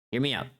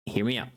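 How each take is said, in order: Both takes have the same delivery.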